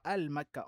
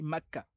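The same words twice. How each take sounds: First: "al-Makka", article "al" clearly sounded first; wrong form with article. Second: "Makka" with no "al", falling at the end; correct form without article. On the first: Teacher repeating the error to avoid, showing "al-Makka". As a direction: put "al" audibly before Makka in "al-Makka". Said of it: "On ne dit pas". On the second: Teacher giving pupils the right form, plain bare "Makka". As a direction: start "Makka" straight on the m, let it fall. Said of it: "On dit Makka". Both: Shown as a demonstration.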